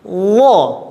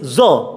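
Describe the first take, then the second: First: The consonant comes out without a hiss. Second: The consonant comes out with a hiss. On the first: The speaker calls it right. "Maka wo mengucapkannya" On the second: The speaker calls it wrong. "keluar desis zo. Nah, itu kurang tepat"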